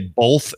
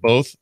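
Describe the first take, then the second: First: An l sound follows the vowel. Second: No l sound follows the vowel.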